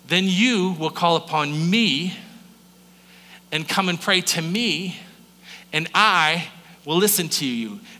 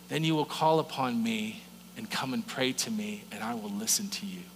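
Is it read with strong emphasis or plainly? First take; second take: emphasis; plainly. First: It is read with strong emphasis on words. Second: It is read plainly, without added emphasis.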